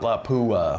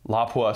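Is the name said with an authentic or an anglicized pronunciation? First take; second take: anglicized; authentic. First: The name is said with an anglicized pronunciation. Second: The name is said with an authentic pronunciation. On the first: The speaker calls it wrong. "It's not Lapua" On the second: The speaker calls it right. "Do you like how I said that authentically?"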